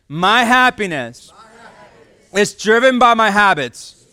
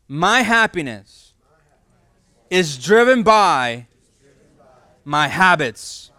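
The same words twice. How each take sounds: First: It is said louder with more energy. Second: It is said with ordinary energy.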